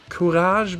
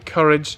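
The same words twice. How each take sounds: First: The name is pronounced the French way. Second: The name is pronounced the English way. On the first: "which I think is pronounced Courage because it's a French team" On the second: "I will say Courage because it just rolls off the tongue easier for me"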